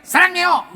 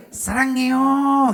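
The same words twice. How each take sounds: First: Loud, flat, falling Sarangyo; mock blunt Korean; wrong blunt Korean. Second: Slow, stretched Sarangyo; sweet Korean way; proper Korean tune. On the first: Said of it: "nggak bisa kita bilang gini". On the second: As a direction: draw Sarangyo out tenderly. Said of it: "Memang gitu". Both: Shown as a demonstration.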